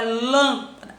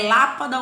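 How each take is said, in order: First: LÂMPADA with a closed, nasal first A; closed vowel. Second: LÁPADA with an open, non-nasal first A; open vowel. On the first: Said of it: "É um timbre fechado". (lâmpada com o "lâm" fechado) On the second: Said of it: "Vamos pelo som". (lápada com o "lá" aberto) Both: Shown as a demonstration.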